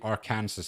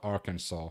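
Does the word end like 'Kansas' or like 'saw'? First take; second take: Kansas; saw. First: The ending sounds like the word Kansas. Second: The ending sounds like the word saw. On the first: The speaker calls it right. "You have Kansas, then you would have Arkansas" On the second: The speaker calls it wrong. "and not Arkansas"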